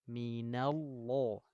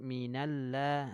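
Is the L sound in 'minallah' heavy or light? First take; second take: heavy; light. First: The L sound is heavy and thick. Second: The L sound is light and thin. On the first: The speaker calls it right. "tapi minallah" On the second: The speaker calls it wrong. "Jangan mi jangan minallah"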